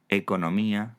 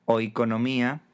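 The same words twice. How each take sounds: First: Said in the usual way. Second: "oikonomía" opening on a full oi glide, rising; Greek oi diphthong. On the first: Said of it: "monoptonga en e en castellano". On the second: Shown as a demonstration. Teacher citing the Greek original, initial oi in "oikonomía". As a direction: say "oikonomía" with oi at the start. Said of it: "el diptongo oi".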